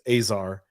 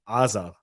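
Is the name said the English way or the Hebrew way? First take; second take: English; Hebrew. First: The name is said with English sounds. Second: The name is said with Hebrew sounds. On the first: "in English it's Azar" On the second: "in Hebrew it's Azar"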